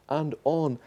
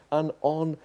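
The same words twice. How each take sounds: The two takes are said the same way.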